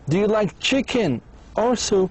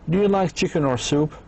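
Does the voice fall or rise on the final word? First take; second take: fall; rise. First: The voice rises on chicken, then falls. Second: The voice rises at the end. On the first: It asks the listener to pick one option. "هذا هو اللي بنسميه either or question" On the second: It asks for a yes or no answer. "Yes or no"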